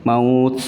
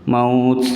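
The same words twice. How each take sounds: No difference in how they are said.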